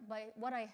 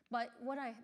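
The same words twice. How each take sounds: The two takes are said the same way.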